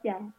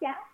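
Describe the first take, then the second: First: The word is said with a level tone. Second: The word is said with a rising tone. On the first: It means fermented bean curd. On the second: It means rice porridge.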